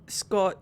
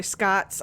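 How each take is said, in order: First: Said in the usual way. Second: "Scats" with an A as in cat; corrected name vowel. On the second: Pretend. Gamer correcting the character's name, "Scats" with an A. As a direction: open A in "Scats", replacing the O. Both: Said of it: "oh, sorry, Scats".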